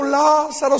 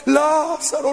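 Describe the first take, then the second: First: Hammed-up repeated cry; mock mourners' wail. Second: Hammed-up funeral cry of "Lázaro"; mock mourners' wail. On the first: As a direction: echo the wail of "Lázaro" again. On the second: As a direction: wail the name like the grieving crowd. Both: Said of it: "toda llore y llore".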